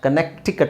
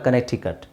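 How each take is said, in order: First: The middle c is pronounced as a k. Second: The middle c is silent. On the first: The speaker calls it wrong. "ಕನೆಕ್ಟಿಕಟ್ ಅಲ್ಲ" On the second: The speaker calls it right. "ಸಿ silent ಆಗುತ್ತೆ"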